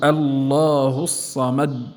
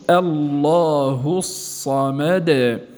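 First: The final d stops abruptly with no release. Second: The final d is released with a slight bounce. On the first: The speaker calls it wrong. "لا نقول الله الصمد، هذا تصادم" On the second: The speaker calls it right. "وإنما قول"

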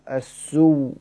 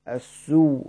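No difference in how they are said.

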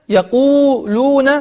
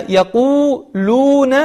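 The two takes are said the same way.

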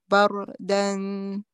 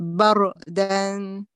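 The two takes are said the same way.

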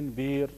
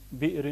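First: The glottal stop becomes a long vowel. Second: A glottal stop closes the first syllable. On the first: "بإبدال الهمزة حرف مد" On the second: "عينه همزة ساكنة"

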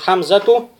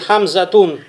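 First: The word ends on a vowel without n. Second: The word ends with an added n sound. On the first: The speaker calls it right. "правильно сказать" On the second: The speaker calls it wrong. "тоже будет ошибочно"

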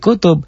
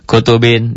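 First: The word ends on a bare final b. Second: The word ends with the -in ending. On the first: The reading stops on this word. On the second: The reading continues without a stop.

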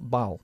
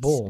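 First: The initial B is pronounced weakly. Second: The initial B is pronounced strongly. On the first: The speaker calls it wrong. "not ball" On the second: The speaker calls it right. "La B de ball es más fuerte"

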